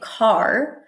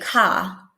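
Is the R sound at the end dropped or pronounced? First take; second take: pronounced; dropped. First: The final R sound is pronounced softly. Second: The final R is dropped, only the vowel. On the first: "instead of saying car" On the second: "they'll say ka"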